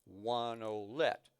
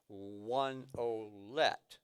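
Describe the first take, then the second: First: "One olet" said slowly and evenly, ending on a rise; slow count. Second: "one olet" drawn out very slowly; very slow count. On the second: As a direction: stretch out "one olet" beat by beat. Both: Shown as a demonstration. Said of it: "I'll play it really slow so you can hear it".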